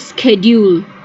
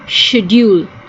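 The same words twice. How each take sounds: First: The word begins with a sk sound. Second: The word begins with a sh sound. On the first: "when we use the C as a K" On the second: "we use it as a sh"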